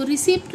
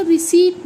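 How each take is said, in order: First: रिसिप्ट with the p sounded; rejected p-t ending on रिसिप्ट; wrong pronunciation. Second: रिसीट as ri-SEET, no p; silent p. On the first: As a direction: say रिसिप्ट as ri-SEPT. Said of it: "नहीं बोलते हैं". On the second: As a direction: model रिसीट with the p dropped. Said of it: "इसका प silent होता है". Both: Shown as a demonstration.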